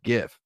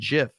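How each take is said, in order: First: The word begins with a hard g sound. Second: The word begins with a j sound. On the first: "by far outnumber people who hate the pronunciation GIF" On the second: "people who hate the pronunciation JIF"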